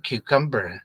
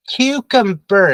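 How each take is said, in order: First: Cucumber with a full KUM in the middle; mistaken pronunciation. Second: CUCUMBER as KYOO-kum-ber, first syllable punched; higher, emphatic Cucumber with a reduced middle syllable; correct pronunciation. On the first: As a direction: show cucumber said wrongly, as kyoo-KUM-ber. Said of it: "Cucumber is not cucumber". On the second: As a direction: model Cucumber clearly, stress up front. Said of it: "is not cucumber". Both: Shown as a demonstration.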